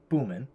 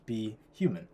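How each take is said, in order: First: The name is said in two syllables. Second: The name is said in three syllables. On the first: The speaker calls it wrong. "if you just read it phonetically" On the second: The speaker calls it right. "But we want to pronounce it as be human"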